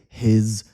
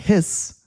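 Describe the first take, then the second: First: The final consonant is a buzzing Z sound. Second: The final consonant is a hissing S sound. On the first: The speaker calls it right. "I say his resume. So these are like Z sounds" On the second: The speaker calls it wrong. "I don't say his"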